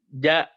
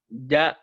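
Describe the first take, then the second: Both takes have the same delivery.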